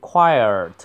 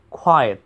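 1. 这个词有卷舌音，舌头向上卷。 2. 这个词没有卷舌音，嘴唇保持不动。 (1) "不要发成quiet" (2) "那个嘴唇不要动"

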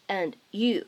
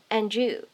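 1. 这两个词是分开读的。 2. "d" 和 "y" 的音连在一起。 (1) "读成分开的and you 也是完全没有问题的" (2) "你可以选择做一个音的同化，可以读成"

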